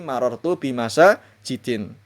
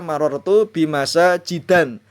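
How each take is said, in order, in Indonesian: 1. Kata terakhir berakhiran in. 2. Kata terakhir berakhiran an. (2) "Tidak boleh dibaca"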